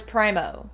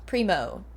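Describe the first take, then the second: First: Primo with a long "eye" vowel, PRY-mo. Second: Primo with an "ee" vowel, PREE-mo, falling. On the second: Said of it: "that was primo". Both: Shown as a demonstration.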